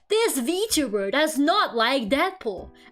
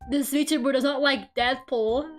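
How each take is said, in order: First: It is read in a put-on announcer voice. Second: It is read in a normal voice. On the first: The speaker calls it right. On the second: The speaker calls it wrong.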